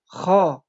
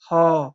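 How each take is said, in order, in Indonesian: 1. Huruf ini diucapkan tebal. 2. Huruf ini diucapkan tipis. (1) "dengan tebal" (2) "tidak tebal atau tipis"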